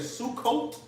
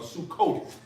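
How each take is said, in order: First: The word ends with a plain t sound. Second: The word ends with a th sound.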